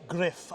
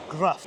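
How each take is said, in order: First: Says griff the Welsh way, short i; Welsh pronunciation griff. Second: Gruff with an English u like rough; English pronunciation gruff. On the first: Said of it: "The, the, the Welsh way". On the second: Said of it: "if you're English". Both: Shown as a demonstration.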